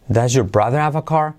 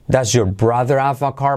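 Both takes have the same delivery.

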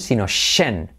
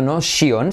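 First: The ending has one weak vowel, 'shen'. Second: The ending has two vowel sounds, 'shi-on'. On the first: The speaker calls it right. "Una vocal, N, y un SH" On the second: The speaker calls it wrong.

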